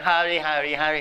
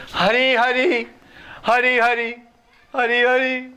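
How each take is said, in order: First: Said in the usual way. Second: High, loud crying call of the name; imitating a devotee's weeping chant. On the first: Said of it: "He's not saying". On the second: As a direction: cry out the name in longing. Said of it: "He's just crying".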